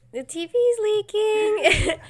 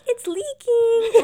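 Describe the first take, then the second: First: High, slow, loud wail; hammed-up movie voice. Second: High, loud, slow drawn-out wail; spoof wail to husband. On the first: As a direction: wail it like a spoof horror film. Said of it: "and, like". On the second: Retold or imitated. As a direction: echo the movie line at your husband. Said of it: "I'm like".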